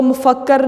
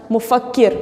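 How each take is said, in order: First: "मुफक्कर" ending in -kar with an a; wrong vowel. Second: "मुफक्किर" ending in a short -kir; doubled k, then short i in "मुफक्किर"; correct vowel. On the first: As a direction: show the mistaken a in the last syllable of "मुफक्कर". ("मुफक्कर" के आख़िर में ज़बर, "कर") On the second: ("मुफक्किर" के आख़िर में छोटी इ, "किर") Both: Shown as a demonstration. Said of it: "इसको मुफक्कर नहीं पढ़ना".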